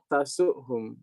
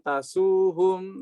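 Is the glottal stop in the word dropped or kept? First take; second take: kept; dropped. First: The glottal stop is clearly pronounced. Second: The glottal stop is replaced by a long vowel. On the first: The jussive marking of the verb is kept. The speaker calls it right. "Jadi tetap tasuhum" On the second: The jussive marking of the verb is lost. The speaker calls it wrong. "Maka tidak dibaca dengan tasuhum, nanti jazmnya jadi hilang"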